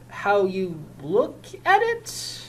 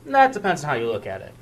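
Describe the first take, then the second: First: Slow echo rising on "at" in disbelief; incredulous echo. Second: Said in the usual way. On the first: Acted. Officer repeating union man's words, slow and incredulous. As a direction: repeat "How you look at it?" slowly, rising at the end.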